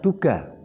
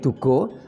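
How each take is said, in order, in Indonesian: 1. Vokal akhirnya adalah bunyi 'a' terbuka. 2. Vokal akhirnya adalah bunyi 'o' bulat. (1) "Duga ini adalah eh, unsur tanah" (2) "Kalau dibaca O menjadi Dugo"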